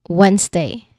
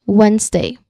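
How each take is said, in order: Both takes have the same delivery.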